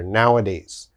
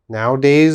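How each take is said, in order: First: It is said with the middle 'a' sound. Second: It is said without the middle 'a' sound. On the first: The speaker calls it right. "You have to say nowa. There's an A there" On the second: The speaker calls it wrong. "Nowadays is wrong"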